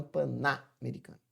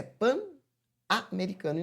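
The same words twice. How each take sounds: First: "panamericano" with the N carried into a NA syllable; wrong linked pronunciation. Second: "pan-americano" with pan cut off before a separate A; correct split pronunciation. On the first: Teacher showing what not to say, "panamericano" linked through the N. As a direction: link it as pa-NA-mericano. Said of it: "e não panamericano". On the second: Teacher giving the pronunciation, "pan-americano" in two separate parts. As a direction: say pan, break, then americano. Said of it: "A pronúncia é pan-americano". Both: Shown as a demonstration.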